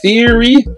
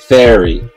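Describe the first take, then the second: First: The first vowel sounds like 'ear'. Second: The first vowel sounds like 'air'. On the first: "we say with the TH sound, ear" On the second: "In the UK, it's air, like TH air"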